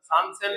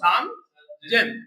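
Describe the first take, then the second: First: The second word begins with an s sound. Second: The second word begins with a z sound. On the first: The speaker calls it wrong. "সান সেন বললে কি হবে? ভুল।" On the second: The speaker calls it right. "এটা বলবো সান জেন তিন হাজার"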